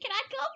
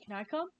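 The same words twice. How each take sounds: First: It is said in a higher boyish voice. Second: It is said in a deep boyish voice.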